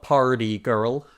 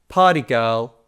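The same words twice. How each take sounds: First: The R sounds are clearly pronounced. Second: The R sounds are dropped. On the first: The speaker calls it wrong. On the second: The speaker calls it right.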